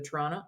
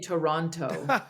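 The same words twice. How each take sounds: First: The second t is dropped, like Toronno. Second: The second t is clearly pronounced. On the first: This is how locals say the name to each other. "the way that, you know, ca- two Canadians would say to each other" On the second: This is how outsiders say the name. "We don't say Toronto"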